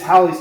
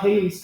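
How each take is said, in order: First: The first syllable rhymes with 'valley'. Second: The first syllable rhymes with 'hay'. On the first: The speaker calls it right. "rhymes with Valley" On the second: The speaker calls it wrong. "It's not"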